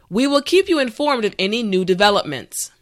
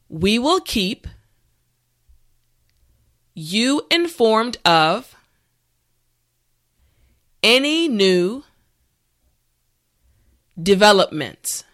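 First: The sentence is said at normal speed. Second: The sentence is said slowly. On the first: "the last time at a regular pace" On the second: "this time repeat after me"

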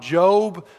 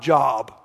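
First: It is said like the biblical name. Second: It is said like the everyday word. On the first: It refers to the man in the Bible. The speaker calls it right. "We're talking about Job" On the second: It refers to work or employment. The speaker calls it wrong. "not Job"

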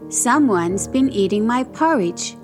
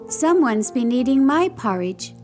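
First: It is bellowed in Papa Bear's great big voice. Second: It is cried in Mama Bear's medium-sized voice.

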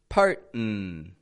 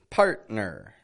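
First: The final syllable is dropped after the glottal stop. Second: A glottal stop is followed by the full final syllable. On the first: The speaker calls it wrong. "they're using it in the wrong part of the word. And then they're omitting more letters" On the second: The speaker calls it right. "you do want to pronounce the letters outside of the T and the N"

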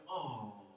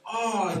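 First: It sounds tender, like seeing something cute. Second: It sounds amazed, like being struck with wonder.

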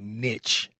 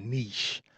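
First: It is said with an American pronunciation. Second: It is said with a non-American pronunciation. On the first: "I'm here in the U.S., so you're going to hear me say niche" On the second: "instead of niche"

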